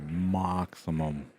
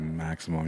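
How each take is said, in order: First: It is said in a put-on European accent. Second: It is said in his normal American accent.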